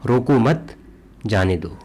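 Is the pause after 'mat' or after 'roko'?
after mat. There is a pause right after 'mat'. Do not stop him; let him go.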